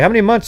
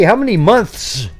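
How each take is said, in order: First: The th sound in months is dropped entirely. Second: The th sound in months is clearly pronounced. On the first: The speaker calls it right. "that's M U N T S" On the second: The speaker calls it wrong. "nobody goes"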